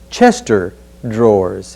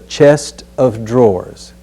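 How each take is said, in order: First: The 'of' merges into 'chest', sounding like 'Chester'. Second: The 'of' is said as its own clear word. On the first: The speaker calls it wrong. "there's no such object as a Chester drawers" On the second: The speaker calls it right. "It's a chest of drawers"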